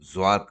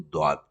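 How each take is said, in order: First: The name begins with a z sound. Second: The name begins with a d sound. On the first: This is the Urdu way of saying it. "Urdu के हिसाब से तो हम ज्वाद कहते हैं" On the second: This is the Arabic way of saying it. "अरबी के हिसाब से इसको द्वाद कहा जाता है"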